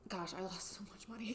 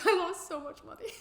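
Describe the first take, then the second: First: Much softer, under the breath; soft dismayed aside; muttered aside. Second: Much higher and louder exclaim; high loud exasperated cry; exasperated outburst. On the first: Rueful aside to viewers. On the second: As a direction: burst out in mock despair. Exclamation to viewers. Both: Real, not acted.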